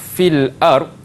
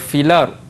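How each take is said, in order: First: A glottal stop separates the two words. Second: The two words run together without a glottal stop.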